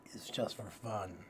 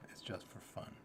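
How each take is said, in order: First: Said in the usual way. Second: Soft whispered aside. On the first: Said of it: "says it, then whispers it". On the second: Shown as a demonstration. Reassuring listeners with a whispered aside. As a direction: whisper it like a confession. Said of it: "repeats it whispered".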